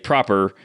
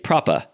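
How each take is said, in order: First: The final R sound is clearly pronounced. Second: The final R sound is dropped entirely. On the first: "she wouldn't say proper" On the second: "she would say propa"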